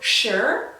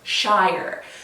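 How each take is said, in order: First: The ending has a short, reduced vowel, like 'shuh'. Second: The ending has a full vowel, like 'shy-er'. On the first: The speaker calls it right. "that is shire" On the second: The speaker calls it wrong. "not shire"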